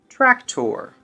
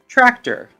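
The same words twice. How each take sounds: First: The second syllable has a full 'or' vowel. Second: The second syllable has a reduced 'er' vowel. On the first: The speaker calls it wrong. "we usually think of the or sound... Now that doesn't sound quite right" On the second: The speaker calls it right. "Let's try it with a silent O. ... There we go"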